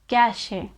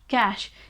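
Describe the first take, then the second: First: It sounds different from the word cash. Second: It sounds exactly like the word cash. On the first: The speaker calls it wrong. "a lot of people pronounce this word as cache" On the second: The speaker calls it right. "It's simply cash. ... It's the same pronunciation"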